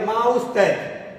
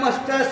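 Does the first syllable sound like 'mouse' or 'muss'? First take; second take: mouse; muss. First: The first syllable sounds like 'mouse'. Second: The first syllable sounds like 'muss'. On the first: The speaker calls it wrong. "तो भाई माउस्टैच नहीं" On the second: The speaker calls it right. "इसका उच्चारण मस्टॉस या मस्टैच हो सकता है"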